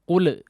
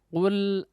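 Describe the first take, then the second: First: The final L is released abruptly with a bounce. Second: The final L is held softly and released gently. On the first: The speaker calls it wrong. "terburu-buru dilepaskan si lidahnya" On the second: The speaker calls it right. "ditempelkan secara lunak"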